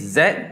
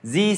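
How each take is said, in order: First: The letter is said as zed. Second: The letter is said as zee. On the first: "Z E D" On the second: "maybe you can comment Z E E"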